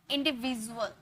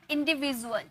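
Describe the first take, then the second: No difference in how they are said.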